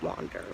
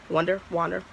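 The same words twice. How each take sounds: First: Soft, low dreamy wander; hushed echo. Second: Said in the usual way. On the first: Pretend. Teasing viewers about her new employer, low hushed echo. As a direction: let the word drift away low and soft. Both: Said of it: "just let your minds wander".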